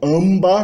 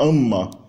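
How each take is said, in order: First: A b sound follows the nasal m. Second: Only an m sound, with no b. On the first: The speaker calls it wrong. "não tem como falar AMBA" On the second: The speaker calls it right. "você vai falar AMA"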